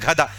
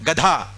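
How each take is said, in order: First: گدھا with an aspirated gh at the start; mock wrong گدھا with gh; wrong pronunciation. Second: گدھا with a plain g, no aspiration; proper گدھا, no breath after g; correct pronunciation. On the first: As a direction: say گدھا breathy on the g, the mistaken way. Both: Shown as a demonstration. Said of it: "گدھا کوئی لفظ ہے".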